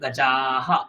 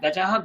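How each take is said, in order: First: The vowel before the final h is long. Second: The vowel before the final h is short. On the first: It refers to many elephants. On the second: It refers to one elephant.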